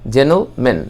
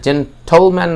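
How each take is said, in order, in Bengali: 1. মাঝের t ধ্বনিটি বাদ পড়ে যায়। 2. মাঝের t ধ্বনিটি স্পষ্টভাবে উচ্চারিত হয়। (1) "এটা সাইলেন্ট হবে" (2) "না হয়ে"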